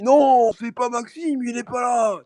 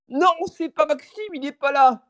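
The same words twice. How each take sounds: First: Slow, high put-on old man; mock old man voice, very slow. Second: High, slow put-on old man voice; mock old man answering the door. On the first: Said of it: "en mode, je dis". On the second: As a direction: fake being an old man. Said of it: "j'imite une voix de vieux".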